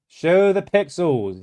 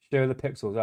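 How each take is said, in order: First: "Show the pixels" drawn out slowly, higher, like a grand decree; slow mock proclamation. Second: "Show the pixels" softer and quick, as an aside; soft repeat. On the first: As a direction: proclaim it sarcastically. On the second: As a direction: mutter it back in agreement. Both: Shown as a demonstration.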